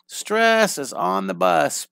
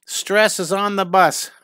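First: A slow chant at normal pitch with a rising end; chanted, repeat the motto with a lift at the end; sing-song chant. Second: A slow, higher, louder chanted catchphrase with a falling end; sing-song chant. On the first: Chanted, teacher repeating the motto to students, slow with a rise. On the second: Teacher chanting the motto to students, slow and higher. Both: Shown as a demonstration.

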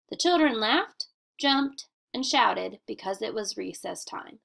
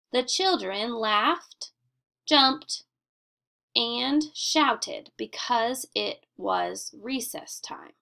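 First: Said in the usual way. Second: Slow, with a clear pause at each comma; pausing at commas. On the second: Shown as a demonstration. Teacher modelling comma pauses for the class, slow and deliberate. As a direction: read it slowly, stopping after every listed verb. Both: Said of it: "A comma tells the reader when to pause".

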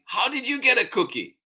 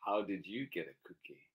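First: Put-on high, fast child's question; demanding child. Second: Quick, soft, at normal pitch; subdued question. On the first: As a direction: blurt it out high and quick. Charlie demands, first reading. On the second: Acted. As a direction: ask it quietly and quickly. Same question, second reading.

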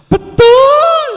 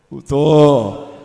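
First: Very high, piercing shouted "betul"; loud shout. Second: Low, loud, falling "betul"; drawn-out affirmation. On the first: Answering the preacher's call to the mothers, loud high shout. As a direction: yell it out high and long. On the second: Preacher checking the crowd agrees, low drawn-out affirmation. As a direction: answer low and firm, stretching it out. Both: Real, not acted. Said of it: "Ada teriakan keras".

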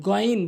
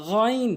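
First: গইন with a hard plain g; wrong pronunciation. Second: গইন with a throaty gh; গইন from the top end of the throat; correct pronunciation. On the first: Teacher showing learners the mistake, wrong গইন. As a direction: say গইন with a Bengali g. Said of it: "ভুল উচ্চারণ". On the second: Teacher modelling for learners, correct throaty গইন. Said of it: "সঠিক উচ্চারণ হচ্ছে". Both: Shown as a demonstration.

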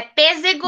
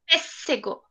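First: Pêssego said with a voiced z, like "pezego"; one-S reading. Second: Pêssego said with a clear voiceless s, like "peseco"; two-S reading. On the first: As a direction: read pêssego as if it had a single S, with a z. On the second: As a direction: read pêssego with a crisp hissing S. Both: Shown as a demonstration. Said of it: "tem um S ou tem dois S?".

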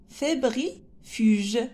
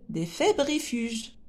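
First: "fébrifuges" slowly in chunks, fébri, pause, fuge; sounded out slowly. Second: Said in the usual way. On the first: Shown as a demonstration. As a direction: break up "fébrifuges" for young readers. Teacher sounds out a hard word. (« fébrifuges » lu lentement, en morceaux)

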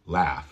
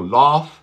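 First: Low, falling "laugh" with cat vowel; corrected "laugh", front vowel; correct short A. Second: Louder wrong "laugh" with rounded AW; wrong back vowel. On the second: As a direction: laugh said as "loff". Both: Shown as a demonstration. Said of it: "No laugh".

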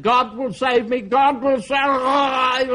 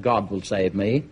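First: High, drawn-out wail of faith; frantic high-pitched shout, stretched at the end; desperate drowning cry. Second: Low, unhurried assurance; calm, settled conviction in a lower voice; calm certainty. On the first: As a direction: cry it out while going under. Believer goes under as flood rises. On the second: Believer calmly refuses the rowing boat. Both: Acted.

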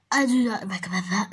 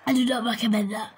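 First: Fake crying. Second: Said in the usual way. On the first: Real, not acted. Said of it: "I'm crying".

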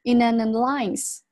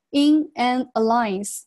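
First: In an alliance run together as "i-na-nalliance"; linked words. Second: In an alliance, slow with each word apart; separated words. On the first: Teacher puts the pieces together, in an alliance fully linked. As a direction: glue in an alliance into one word. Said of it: "那合到一块儿". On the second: Teacher shows words read singly, in an alliance pulled apart. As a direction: leave clear gaps between in, an and alliance. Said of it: "把这三词呢分得特别开". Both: Shown as a demonstration.

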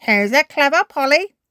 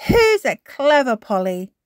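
First: High, loud parrot mimic; parrot repeating. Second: Higher, louder grandma; praising granny. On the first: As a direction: echo it like a parrot. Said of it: "repeats Polly Parrot". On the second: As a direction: praise the parrot. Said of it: "says Granny Pig". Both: A narrator's reading.

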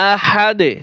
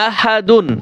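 First: আহাদে cut to "ahad" with a short bouncing d; qalqalah on d. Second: আহাদুন with the "dun" ending fully sounded; full unpaused form. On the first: Teacher showing qalqalah on dal, bounced final d. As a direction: stop on আহাদে, letting the d echo briefly. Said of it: "কলকলা হবে". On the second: Teacher showing what is not said at waqf, full -dun ending. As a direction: say আহাদুন through to its nasal n. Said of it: "আমরা আহাদুন কিন্তু বলি না". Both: Shown as a demonstration.

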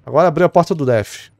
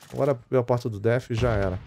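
First: Loud callout. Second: Said in the usual way. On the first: Real, not acted. Excited callout.

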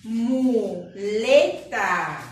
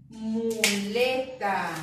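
First: Muleta drawn out slowly, syllable by syllable, louder; slow sounding out. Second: Said in the usual way. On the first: Shown as a demonstration. Teacher sounding out a word for children, slow and loud. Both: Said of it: "Con la sílaba mo".

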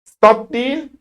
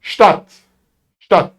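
First: "Stadt" with a plain s, not sh; wrong Turkish reading. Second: "Stadt" opening with sh: shtat; correct German Stadt. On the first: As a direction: misread "Stadt" as s-tat, starting on a hissed s. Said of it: "Stadt başka". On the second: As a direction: say "Stadt" as shtaht, crisp final t. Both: Shown as a demonstration.

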